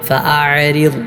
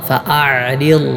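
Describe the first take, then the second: The two takes are said the same way.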